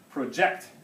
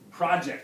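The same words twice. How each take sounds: First: The stress is on the second syllable. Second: The stress is on the first syllable. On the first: It is the verb. "Stress on the second syllable" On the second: It is the noun. "the noun definition is project"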